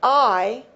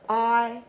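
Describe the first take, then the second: First: The vowel is long and open. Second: The vowel is short and closed. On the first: "the full I ... it is elongated" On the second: "it's a more closed form and it is shortened"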